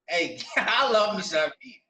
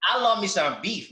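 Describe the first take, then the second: First: Slow, savoring it with a laugh; drawn-out amused repeat; relishing, laughing. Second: Said in the usual way. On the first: Real, not acted. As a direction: laugh and stretch out the love of beef.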